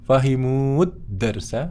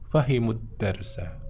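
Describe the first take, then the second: First: The vowel at the end of fahimu is long. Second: The vowel at the end of fahimu is short. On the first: The speaker calls it wrong. "bukan fahimud darsa, bukan seperti itu" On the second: The speaker calls it right. "Pendek ya"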